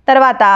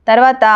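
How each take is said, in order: Both takes have the same delivery.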